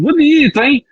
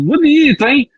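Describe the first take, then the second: First: The tone is warm and approving. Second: The tone is warm and approving.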